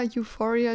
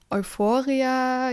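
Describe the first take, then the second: First: "Euphoria" said the English way, opening with "you"; English "Euphoria", starting "you-fo"; English pronunciation. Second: "Euphoria" said the German way, opening with "oi"; drawn-out German "Euphoria", starting "oi-fo"; German pronunciation. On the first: Podcaster unsure of a series title, trying English pronunciation of "Euphoria". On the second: Podcaster unsure of a series title, trying German pronunciation of "Euphoria". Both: Real, not acted. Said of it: "wie ich's aussprechen soll".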